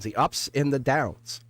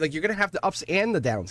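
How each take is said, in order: First: Slow emphatic repeat. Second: Said in the usual way. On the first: Real, not acted.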